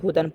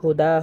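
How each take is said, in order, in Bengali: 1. শব্দটি ন ধ্বনি দিয়ে শেষ হয়। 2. শব্দটি দীর্ঘ স্বরধ্বনি দিয়ে শেষ হয়। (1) "বানান করার ক্ষেত্রে হুদান পড়েছি" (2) "অক্ফ করি তাহলে কিন্তু হুদা হবে"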